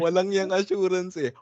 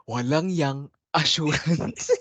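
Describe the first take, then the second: First: Quoting a friend. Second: Slow, laughing repeat; laughing through it. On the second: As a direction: giggle the words out slowly. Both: Retold or imitated. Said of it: "Naalala ko bigla sa pagkasabi mo".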